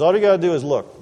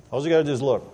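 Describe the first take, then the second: First: "gotta" and "look" pressed louder; emphatic. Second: Said in the usual way. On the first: Shown as a demonstration. Preacher stressing to the crowd, firm emphatic. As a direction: drive the point home, louder. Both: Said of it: "He says".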